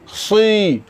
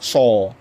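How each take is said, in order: First: The lips are spread, not rounded. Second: The lips are pushed out and rounded. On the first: The speaker calls it right. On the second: The speaker calls it wrong.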